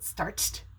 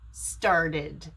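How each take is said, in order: First: The ending adds no extra syllable. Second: The ending is an extra 'id' syllable. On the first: The speaker calls it wrong. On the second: The speaker calls it right.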